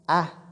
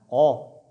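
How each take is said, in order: First: The sound is light and thin. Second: The sound is heavy and dark. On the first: The speaker calls it right. "A est lu avec légèreté, avec finesse" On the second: The speaker calls it wrong. "On ne dit pas O"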